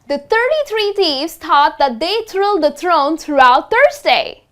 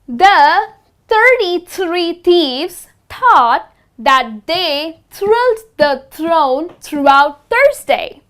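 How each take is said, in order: First: The sentence is spoken a little faster. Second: The sentence is spoken very slowly. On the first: "let's try it a little faster" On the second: "we went really slow"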